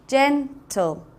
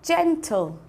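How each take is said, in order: First: Gen... tle, drawn out for the class; slow, syllables split. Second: Said in the usual way. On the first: Shown as a demonstration. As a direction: stretch "gentle" into its two syllables, gen-tle. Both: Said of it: "two syllables".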